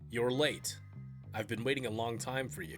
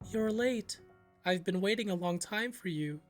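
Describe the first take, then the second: First: It is said in a normal speaking voice. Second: It is said in a creepy high-pitched voice.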